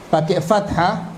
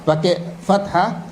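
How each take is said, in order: Both takes have the same delivery.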